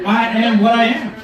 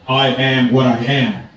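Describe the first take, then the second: First: Higher-pitched, emphatic repeat of a quote; quoting God triumphantly. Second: Low, slow divine pronouncement; voice of God. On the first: Retold or imitated. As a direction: throw the quote back, pitched up. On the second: Acted. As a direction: intone it slowly and low, as God. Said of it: "And God did not want to offend".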